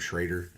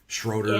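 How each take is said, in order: First: The name's first vowel sounds like 'ay'. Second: The name's first vowel sounds like 'oh'. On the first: "everybody calls him Schrader, apparently it's the actual pronunciation" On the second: "there's an O, not an A"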